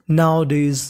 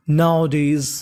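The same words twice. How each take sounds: The two takes are said the same way.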